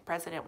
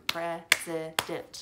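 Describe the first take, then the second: First: Said in the usual way. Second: "President" slow, broken into three beats; syllable by syllable. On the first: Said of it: "How many syllables?". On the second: Shown as a demonstration. Teacher showing pupils that it was three, "President" in syllables. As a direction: clap out "President" as pre, si, dent. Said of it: "President was three".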